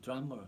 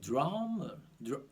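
First: Drummer in a British accent, soft R. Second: Drummer in an American accent, heavy rolled-back R. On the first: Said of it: "อังกฤษก็ตัว R เขาจะไม่เยอะมาก". (คำว่า drummer สำเนียงอังกฤษ ออกเสียง R เบาๆ) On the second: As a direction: lean hard on the R in drummer, American style. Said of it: "ตัว R มันจะเยอะมาก". (คำว่า drummer สำเนียงอเมริกัน ออกเสียง R หนักๆ) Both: Shown as a demonstration.

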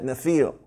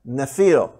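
First: Nephil said as NEF-eel, stress on the first syllable, falling; Nephil pronounced. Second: Nephil said as NEF-eel, stress on the first syllable; Nephil pronounced. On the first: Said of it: "that's how you say it, Nephil". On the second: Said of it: "that's how you say it". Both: Shown as a demonstration.

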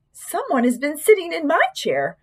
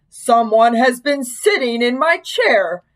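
First: Higher-pitched mother bear; middle-sized Mama Bear voice. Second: Slow, big bear voice; great big Papa Bear voice. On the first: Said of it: "said in her middle-sized voice". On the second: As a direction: boom it out slowly like a big bear. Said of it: "said in his great big voice". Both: A narrator's reading.

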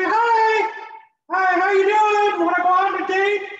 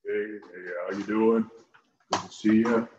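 First: Very high squeaky falsetto; hammed-up mouse-voiced date request. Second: Much lower, softer, put-on deep voice; deep macho voice. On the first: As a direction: squeak out a pickup line. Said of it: "I sound like Minnie Mouse". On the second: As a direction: play the smooth tough guy saying hi. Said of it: "you like to have that deep voice".

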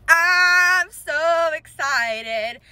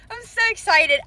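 First: Slow, stretched, high giddy wail; drawn-out excitement. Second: High-pitched giddy burst; real excitement. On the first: Collector repeats her joy to viewers, drawn-out excitement. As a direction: drag out every word with joy. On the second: Collector tells viewers about her finds, excited. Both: Real, not acted.

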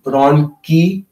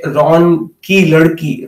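First: Ki drawn out with the E leaned on; slow, stretch the E of ki; teacher modelling ki with a stretched E; long stressed ki. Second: Said in the usual way. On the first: Shown as a demonstration. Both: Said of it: "more emphasis on the E part".

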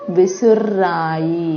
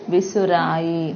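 First: విసుర్రాయి slow with the rr held; ఒత్తు on ర, విసుర్రాయి doubled rr. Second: Said in the usual way. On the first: Shown as a demonstration. Teacher showing pupils the doubled r, slow held rr. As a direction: stretch the rr in విసుర్రాయి. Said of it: "రాకి రావొత్తుంది". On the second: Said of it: "మొదటి పదంలో రా ఉంది".

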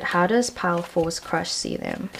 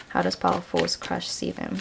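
First: Said in the usual way. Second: Asked again much softer; quieter repeat. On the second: Shown as a demonstration. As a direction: murmur the question to the cards. Repeats question to spirit.

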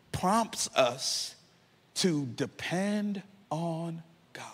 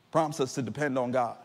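First: Slow, soft whisper. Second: Said in the usual way. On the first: Acted. Preacher softly pressing the point on listeners, whispered. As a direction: breathe the words out.

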